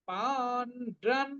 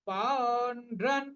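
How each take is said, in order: No difference in how they are said.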